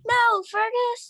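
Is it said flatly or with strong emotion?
strong emotion. It is said with strong emotion.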